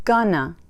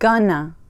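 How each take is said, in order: First: The words are reduced and run together. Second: The same.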